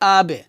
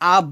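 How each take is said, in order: First: The final consonant's echo drops downward. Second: The final consonant's echo is lifted upward. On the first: The speaker calls it right. "বলতে হবে আবে" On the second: The speaker calls it wrong. "আ ব বললে আমরা কফের মতো করে ফেলবো"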